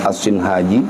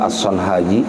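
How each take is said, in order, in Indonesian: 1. Huruf vokal setelah S pertama adalah 'i'. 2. Huruf vokal setelah S pertama adalah 'o'. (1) "Matannya Tuan Syekh Ibnu Jurmiyah As-Sinhaji" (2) "orang bacanya juga As-Sonhaji, boleh saja"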